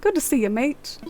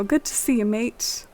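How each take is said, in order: First: Put-on British accent. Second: Light mock British accent on mate. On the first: Player retries the line in a British accent. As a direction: say "Good to see you, mate." trying out a British accent. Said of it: "Does he have, like, a British accent?". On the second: Player greets Kix in a mock British accent. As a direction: say "Good to see you, mate." with a playful British lilt. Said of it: "trying out my accent to impress Kix".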